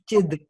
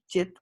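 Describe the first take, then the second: First: The word ends with a D sound. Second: The word ends with a T sound. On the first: The word is joined to the next word. "the T for turkey becomes a D for dog" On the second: The word stands alone. "the real thing is chit, which is C I T, T as in Turkey"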